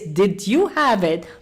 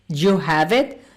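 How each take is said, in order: First: Every word is pronounced fully and separately. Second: 'Did you' shrinks into one short syllable. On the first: The speaker calls it wrong. "No one speaks like that" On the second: The speaker calls it right. "it becomes one word like you"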